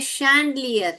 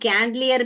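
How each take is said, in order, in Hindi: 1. इस शब्द की शुरुआत sh ध्वनि से होती है। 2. इस शब्द की शुरुआत k ध्वनि से होती है। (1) "शैंडलियर है" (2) "ये कैंडलियर भी नहीं है"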